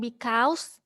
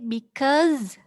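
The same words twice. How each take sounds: First: The word ends with an s sound. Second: The word ends with a z sound. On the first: The speaker calls it wrong. "bukan because" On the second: The speaker calls it right. "tapi because, ya, belakangnya itu Z"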